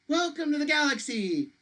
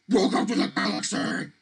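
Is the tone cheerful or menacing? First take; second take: cheerful; menacing. First: It is said in a cheerful tone. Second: It is said in a menacing tone.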